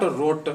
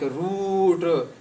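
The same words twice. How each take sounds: First: Rot as root with a short vowel; short-vowelled rot, rhyming with put; short U, wrong take. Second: Root with the vowel stretched out; slow, long-vowelled root. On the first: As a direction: clip the vowel in rot to a brief u. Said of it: "short sound of U". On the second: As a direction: hold the oo in root. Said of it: "long sound". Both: Shown as a demonstration.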